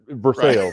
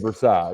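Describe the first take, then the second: First: It is said the local Kentucky way. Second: It is said the French-style way. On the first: This is how people say it around here. "in Kentucky, we call" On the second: This is how it is said elsewhere. "instead of"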